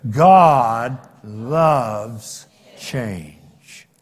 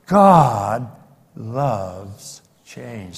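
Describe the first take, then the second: First: God loves change drawn out very slowly; slow emphatic. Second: Said in the usual way. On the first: Shown as a demonstration. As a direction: stretch each word of God loves change. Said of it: "Let's try it one more time". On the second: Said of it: "Will you say that with me?".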